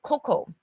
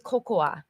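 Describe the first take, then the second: First: The word ends on the second syllable, no extra vowel. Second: The word ends with an extra final 'a' syllable. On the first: The speaker calls it right. "just cocoa" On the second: The speaker calls it wrong. "we still don't say cocoa"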